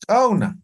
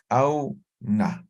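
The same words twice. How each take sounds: First: Said in the usual way. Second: "auna" split slowly into au, pause, na; syllable by syllable. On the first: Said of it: "Otro, a ver". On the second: Shown as a demonstration. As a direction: say "auna" in two separated syllables. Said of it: "Entonces esto va a ser".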